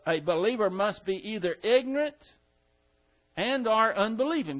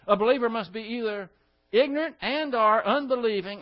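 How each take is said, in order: First: The sentence is spoken more slowly. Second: The sentence is spoken quickly. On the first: The speaker calls it right. "I want to do it again" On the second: The speaker calls it wrong. "I said that too fast"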